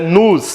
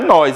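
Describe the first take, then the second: First: It is said as the unstressed form nos. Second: It is said as the stressed pronoun nós. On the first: The speaker calls it right. "é nos" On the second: The speaker calls it wrong. "não é nós"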